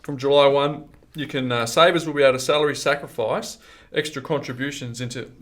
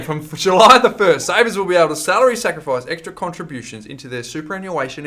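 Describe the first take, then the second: First: Hiccuping through the words; talking with hiccups. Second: Louder, slower careful restart. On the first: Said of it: "excuse me, I've got the hiccups". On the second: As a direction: start again, louder and slower. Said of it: "I'll start again". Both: Real, not acted.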